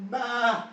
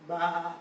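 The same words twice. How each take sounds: First: High, insistent bleat; sharper, higher sheep call; louder sheep bleat. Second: A plain, modest bleat; understated sheep call; distant sheep bleat. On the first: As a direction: bleat out higher, making sure it's heard. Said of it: "A little bit louder this time". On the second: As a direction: bleat like a sheep heard some way off. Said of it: "off in the distance". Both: Acted.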